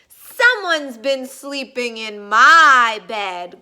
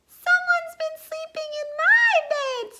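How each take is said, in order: First: It is said in a deep growl. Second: It is said in a high squeak.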